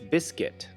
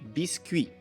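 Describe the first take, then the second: First: It is said with an American English pronunciation. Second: It is said with a French pronunciation. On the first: "In American English" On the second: "In French"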